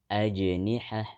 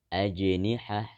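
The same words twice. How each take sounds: No difference in how they are said.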